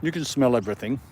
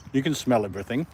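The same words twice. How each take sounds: The two takes are said the same way.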